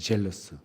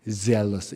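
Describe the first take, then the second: First: The word begins with a j sound. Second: The word begins with a z sound. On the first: It sounds like the word meaning envious. The speaker calls it wrong. "발음이 안 좋은데요, 제가" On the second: It means full of zeal. The speaker calls it right. "zealous 이렇게 해야지 되죠"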